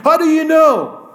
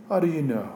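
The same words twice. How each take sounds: First: High, loud, disbelieving question; preacher mocking the brothers' claim, disbelieving and loud; incredulous challenge. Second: Softer, lower pointed question; the same question echoed softly to the congregation; quiet repeat. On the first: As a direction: throw the question at them in disbelief. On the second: Acted. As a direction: drop it low and let it sink.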